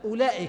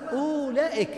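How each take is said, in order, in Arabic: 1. يُنطق بسهولة دون أي صوت للواو. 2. يُقرأ بنطق الواو المكتوبة بعد الهمزة. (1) "لاحظوا اللفظ أولئك، همزة لام أولى" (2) "أولئك بعد الهمزة واو"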